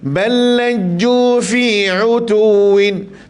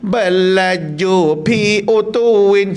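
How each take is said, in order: First: The word before utuwin starts with an f sound. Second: The word before utuwin starts with a p sound. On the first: The speaker calls it right. "pastikan di wastal halqi" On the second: The speaker calls it wrong. "dia bunyi pi, ... salah"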